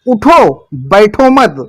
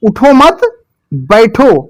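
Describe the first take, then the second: First: The pause comes right after the first word. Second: The pause comes right after the second word. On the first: Stand up; sitting is forbidden. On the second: Sit down; standing up is forbidden.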